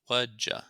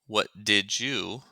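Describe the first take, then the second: First: The words merge with a weak final vowel. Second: Each word is said fully and separately.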